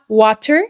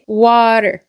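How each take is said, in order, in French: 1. Le T est un son T bien net. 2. Le T sonne proche d'un D. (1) "pas water" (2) "une sonorité qui est très proche du D"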